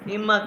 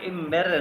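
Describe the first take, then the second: First: The word ends with an open 'a' sound. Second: The word ends with a clear 'er' sound. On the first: The speaker calls it right. "German वाले प्रोनाउंस करते हैं इमा" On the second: The speaker calls it wrong. "इसको आप इमेर नहीं कहना"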